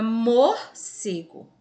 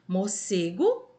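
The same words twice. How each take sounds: First: "morcego" slowed, first syllables pulled apart and punched; stress on penultimate syllable. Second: Said in the usual way. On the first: Shown as a demonstration. Teacher showing pupils a paroxítona, "morcego" slowly and forcefully broken up. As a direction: say "morcego" loud and slow, broken after "mor". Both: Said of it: "é a penúltima".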